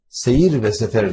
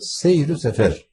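First: The nouns are joined by a separate 've'. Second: The nouns are joined by a short 'u' vowel. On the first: The speaker calls it wrong. "Seyir ve sefer değil" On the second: The speaker calls it right. "değil de seyir-ü sefer"

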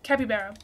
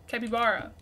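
First: The ending sounds like the word bear. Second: The ending sounds like the word bar. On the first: The speaker calls it wrong. "Not a bear" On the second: The speaker calls it right. "Like a bar"

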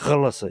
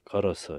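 First: The first consonant is said hard and strongly. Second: The first consonant is said softly and gently. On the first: This is the older, original pronunciation. "이런 발음입니다" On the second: This is how the word is said today. "지금은 뭐, 젠틀하게, 부드럽게 걸어서, 이러지만"

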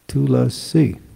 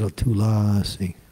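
First: The stress is on the third syllable. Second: The stress is on the second syllable. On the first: The speaker calls it right. "the emphasis is over the I, Tulasi" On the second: The speaker calls it wrong. "there's no emphasis over the A. Everybody says that, Tulasi. It's wrong"

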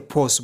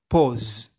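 First: The final consonant is a hissing s sound. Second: The final consonant is a buzzing z sound. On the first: The speaker calls it wrong. "Ba za ka ce pose ba" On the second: The speaker calls it right. "ana furta su a matsayin Z sound"

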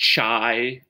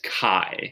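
First: The word does not begin with a K sound. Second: The word sounds like 'kai' with a K sound. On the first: The speaker calls it wrong. "Don't call it chi" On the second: The speaker calls it right. "It's chi. ... K-A-I maybe?"

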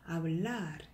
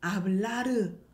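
First: The final r is said softly. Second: The final r is said strongly. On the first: The speaker calls it right. "Hablar 이렇게 약하게" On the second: The speaker calls it wrong. "Hablar 아니죠?"

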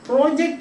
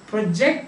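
First: The stress is on the first syllable. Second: The stress is on the second syllable. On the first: It is a noun meaning a piece of planned work. "So project is noun" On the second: It is a verb meaning to throw forward or display. "Project is verb"

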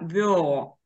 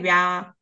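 First: The vowel is a soft yo sound. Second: The vowel is a ya sound. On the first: The speaker calls it right. "да, вьо" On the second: The speaker calls it wrong. "не вя"

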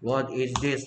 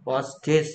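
First: 'What' and 'is' are said as separate words. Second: 'What is' is shortened into one syllable. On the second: "What's this는 뭐의 줄임말이다"

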